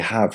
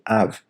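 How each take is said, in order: First: The word starts with a clear h sound. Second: The word starts without any h sound. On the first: "We don't even say have" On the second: "we say have. ... So H's get removed"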